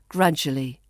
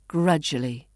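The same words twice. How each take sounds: First: The word is said with syllables squeezed. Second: The same.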